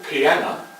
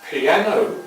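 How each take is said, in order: First: The word ends with an 'ah' sound. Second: The word ends with an 'oh' sound. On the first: The speaker calls it wrong. "Sometimes the people in London don't pronounce the words strictly correctly, and piano might be piana" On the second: The speaker calls it right.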